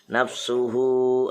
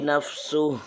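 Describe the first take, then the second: First: The word ends with a final vowel, flowing on. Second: The word is cut short, ending without a vowel. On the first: The reader continues into the next words. "lebih utama diteruskan" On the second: The reader stops at this point. "Kalau dibaca nafsu kan berhenti, boleh"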